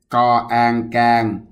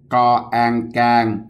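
The two takes are said the same way.

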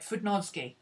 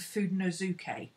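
First: A middle syllable is left out. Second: An extra syllable is said in the middle. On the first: The speaker calls it right. "She missed out a syllable in the middle that we put in" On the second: The speaker calls it wrong. "I keep saying Fudenosuke, and that's what everybody I've heard says"

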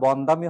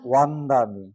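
First: The word begins with a b sound. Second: The word begins with a w sound. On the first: The speaker calls it wrong. "তাহলে কি এখন আর বন্দামি হওয়ার সুযোগ আছে নাকি?" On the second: The speaker calls it right. "ব থাকলে ওয়া, হবে কি ওয়ান্দামি"

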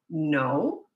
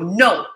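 First: It is said gently but firmly. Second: It is said harshly, as if scolding.

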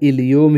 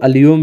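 First: The word begins with an 'i' vowel. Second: The word begins with an 'a' vowel. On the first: This is the original form of the word. "असली वर्ड जो है इलियोम ही होता है" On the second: This is a form many people use. "कई लोग अलियोम भी बोलते हैं"

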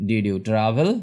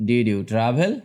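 No difference in how they are said.

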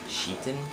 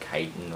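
First: The name begins with a sh sound. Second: The name begins with a k sound. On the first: The speaker calls it right. "it's actually pronounced Sheetan" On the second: The speaker calls it wrong. "or Kiten"

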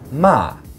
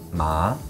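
First: The pitch starts high and falls sharply. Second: The pitch rises from mid to high. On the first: It means to scold. "fourth tone. It starts high and it falls" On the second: It means hemp. "the second tone, which is a rising tone"

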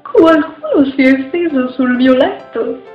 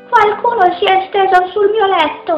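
First: It is said in a medium-sized voice. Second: It is said in a small, high voice.

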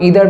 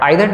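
First: The first vowel sounds like 'ee'. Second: The first vowel sounds like 'eye'. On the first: This is the usual American pronunciation. "এই প্রোনাউন্সিয়েশনটা US বেশিরভাগ ক্ষেত্রে হয়ে থাকে" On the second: This is the usual British pronunciation. "আইদার নাইদার এটা আমরা ব্রিটিশে বেশি দেখতে পাই"

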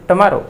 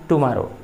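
First: The first syllable has a weak reduced vowel. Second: The first syllable has a full 'oo' vowel. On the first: The speaker calls it right. "टू के बाद consonant आया है तो" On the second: The speaker calls it wrong. "Generally बच्चे उच्चारण करते हैं टुमारो"

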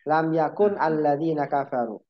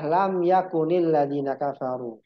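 First: Yakun ends in a bare n, with no linking vowel. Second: Yakun takes an added i that links it onward. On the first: This is the underlying form before the two silent letters meet. "Jadi asalnya apa? Lam yakun" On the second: The first silent letter takes a vowel because two silent letters meet. "maka huruf yang pertama itu diharokatkan. Maka jadilah"

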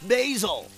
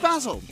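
First: Basil is pronounced the American way. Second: Basil is pronounced the British way.

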